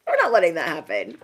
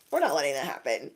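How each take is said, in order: First: Said through a laugh. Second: Said in the usual way. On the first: Real, not acted. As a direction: laugh while you insist. Repeated, first straight then laughing.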